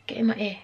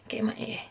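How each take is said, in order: First: Said in the usual way. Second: Whisper. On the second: Real, not acted. Vlogger putting earrings in, whispering to herself. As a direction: Get in my ear whispered, much softer.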